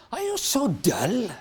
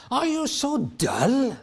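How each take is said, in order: First: Slow, higher, sharp reproach; sharp rebuke. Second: Slow, higher, cutting reproach; sharp rebuke. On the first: Jesus rebuking his disciples, slow and sharp. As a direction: scold the disciples. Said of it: "can be impolite and can be rude". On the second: Jesus rebuking his disciples, slow and cutting. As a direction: let the rebuke sting. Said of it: "that's a bit, bit sharp". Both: Retold or imitated.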